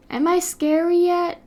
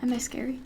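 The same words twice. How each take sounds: First: Higher playful challenge, pushed up; bigger scary attempt. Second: Softly asked, at usual pitch; quiet scary attempt. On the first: Streamer trying again to be scary, high and playful. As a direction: raise the pitch and push it out at them. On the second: Streamer testing if they are scary, soft tentative try. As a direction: try being scary, but keep it small and soft. Trying out being scary, first take.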